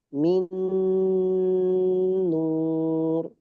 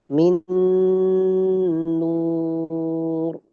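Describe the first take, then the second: Both takes have the same delivery.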